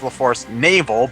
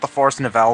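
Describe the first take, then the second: First: The last word sounds like 'navel'. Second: The last word sounds like 'nouvelle'. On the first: The speaker calls it right. "it's supposed to be pronounced the Force Navel" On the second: The speaker calls it wrong. "I've always called it the Force Nouvelle"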